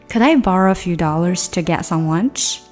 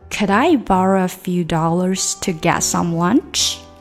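First: The sentence is spoken at a quicker pace. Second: The sentence is spoken at a moderate pace. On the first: "再快一点吧" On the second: "整个句子连起来吧"

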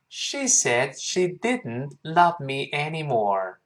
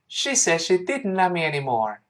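First: The sentence is spoken slowly. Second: The sentence is spoken fast. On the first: "我们完整的先慢慢跟老师读一遍。" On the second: "我们再快一点。"

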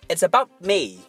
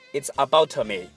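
First: The t at the end of about is held silent. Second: The t at the end of about is audibly released. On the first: The speaker calls it right. "You've got to use the skill of stops" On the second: The speaker calls it wrong. "千万不要说"

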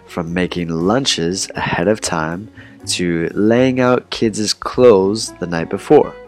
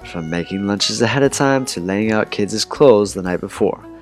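First: It is read at a slower pace. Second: It is read at a faster pace.

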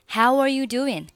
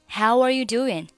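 First: The vowel in how is full, with a w glide. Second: The same.

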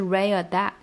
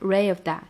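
First: The f in 'of' is dropped completely. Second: The f in 'of' is heard briefly. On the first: The speaker calls it wrong. "不要把它直接吞掉，不是ray of that，这样很假" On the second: The speaker calls it right. "还是要发出来，只是说它很短而已"

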